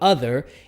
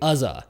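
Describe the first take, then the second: First: The word ends with an r-colored er sound. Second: The word ends with a plain uh sound. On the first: "we typically go er" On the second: "change it more to an uh sound"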